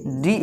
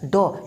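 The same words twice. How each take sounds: First: डी with a long 'ee', pitched low; letter name D. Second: ड as retroflex d plus open 'aw'; sound of D. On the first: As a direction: say डी as the alphabet name, 'dee'. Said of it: "अगर डी पढ़ते तो". (डी को लंबी ई के साथ बोलें) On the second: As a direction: say ड as the letter's sound, not 'dee'. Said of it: "अभी हमको क्या पढ़ना है". (ड को खुली अ ध्वनि के साथ बोलें) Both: Shown as a demonstration.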